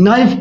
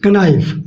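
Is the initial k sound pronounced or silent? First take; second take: silent; pronounced. First: The word starts with n; k is silent. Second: The word starts with an audible k sound. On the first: The speaker calls it right. "नाइफ पढ़ते हैं इसको" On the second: The speaker calls it wrong. "न कि कनाइफ"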